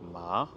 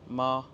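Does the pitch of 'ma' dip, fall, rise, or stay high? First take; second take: rise; stay high. First: The pitch rises from lower to higher. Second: The pitch stays high and level. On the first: "c'est le ton qui remonte" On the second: "le premier ton, le plus aigu"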